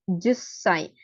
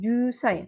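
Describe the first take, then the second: First: The s sound is held as a double consonant. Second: The s sound is short and single. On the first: The speaker calls it right. "Ada sekecilnya ya, double konsonan" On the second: The speaker calls it wrong. "bukan jusai"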